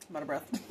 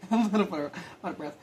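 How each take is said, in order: First: Real breathlessness, softer and lower; out of breath. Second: Breathless words through a real laugh; laughing, out of breath. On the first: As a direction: catch your breath between the words. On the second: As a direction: laugh while still catching your breath. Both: Real, not acted.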